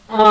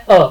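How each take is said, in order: First: अ sung through mouth and nose together, a nasal अँ. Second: अ said purely through the mouth, no nasal ring; plain oral a. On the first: Teacher demonstrates the nasalised अ for students. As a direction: let अ ring in the nose as अँ. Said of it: "हो जाएगा हमारा अनुनासिक". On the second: Teacher shows the non-nasal अ to students. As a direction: clean open अ with no air through the nose. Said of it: "ये हो गया अनुनुनासिक". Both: Shown as a demonstration.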